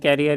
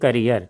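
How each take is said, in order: First: The first syllable sounds like 'care'. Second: The first syllable sounds like 'cur'. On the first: The speaker calls it wrong. "नहीं जी" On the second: The speaker calls it right.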